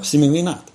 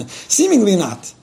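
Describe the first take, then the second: First: Said in the usual way. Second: Slow, laughing repeat; amused. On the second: Real, not acted. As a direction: chuckle through it.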